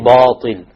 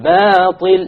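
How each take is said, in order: First: The long a vowel is heavy and full. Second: The long a vowel is light and thin. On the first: The speaker calls it wrong. "You don't say باطل. And this is a very common mistake because people think that the ta after it will affect the alif" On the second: The speaker calls it right. "the letter preceding it, not the letter after it"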